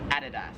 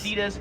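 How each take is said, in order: First: Adidas is said the Australian way. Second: Adidas is said the American way. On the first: "here in Australia, it is" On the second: "In America, we would pronounce this"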